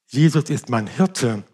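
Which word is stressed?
Hirte. The stress falls on the word Hirte. His role is to look after and provide. "Der Hirte kümmert sich um mich und versorgt mich"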